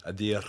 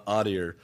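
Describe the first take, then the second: First: Adir said with Spanish vowels and no American r; correct pronunciation. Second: Adir said the gringo way, with a hard American r at the end; american accent spanish. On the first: Shown as a demonstration. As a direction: Adir said softly as ah-DEE, no r at the end. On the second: Real, not acted. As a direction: Adir with English vowels and a rolled-in American r. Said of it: "I definitely said that like a gringo".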